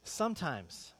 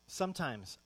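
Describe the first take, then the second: No difference in how they are said.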